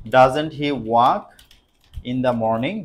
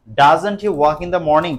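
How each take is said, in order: First: Slow, drawn-out dictation. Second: Slow, deliberate reading; slow dictation. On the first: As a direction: dictate it again word by word. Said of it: "slow dictation again". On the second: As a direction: dictate it for the class. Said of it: "slow dictation". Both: Shown as a demonstration. (ধীরে ধীরে বলা)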